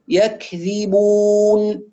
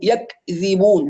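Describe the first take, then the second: First: The k stops then ends with breathy air. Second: The k is released with a bouncing jolt. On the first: The speaker calls it right. "يبدأ بشدة وينتهي بهمس ... هكذا" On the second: The speaker calls it wrong. "يجي بعض الناس أحيانا يقلقلها"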